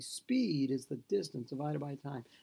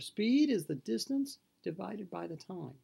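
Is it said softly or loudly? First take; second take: softly; loudly. First: It is said at normal loudness. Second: It is said louder.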